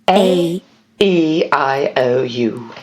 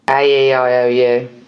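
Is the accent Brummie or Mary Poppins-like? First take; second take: Mary Poppins; Brummie. First: The vowels are said in a Mary Poppins accent. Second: The vowels are said in a Brummie accent.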